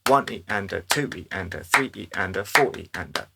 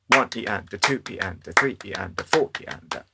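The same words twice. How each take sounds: First: The syllables are spaced evenly in time. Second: The syllables are spaced unevenly, with a lilt. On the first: "they're all exactly the same length as each other" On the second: "slightly wonkier"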